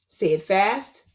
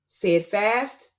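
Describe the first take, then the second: No difference in how they are said.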